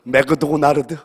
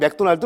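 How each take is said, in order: First: It is said in a Japanese-style pronunciation. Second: It is said in an ordinary Korean pronunciation.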